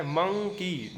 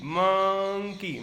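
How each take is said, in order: First: Said in the usual way. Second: monkey stretched very slowly and louder; drawn-out monkey. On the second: Shown as a demonstration. Teacher stretching monkey so a child hears its first sound. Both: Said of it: "क्या बोल रहा है".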